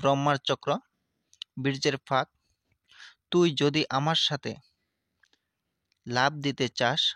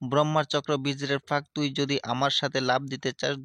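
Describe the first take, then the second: First: The line is recited slowly and deliberately. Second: The line is recited at a normal pace.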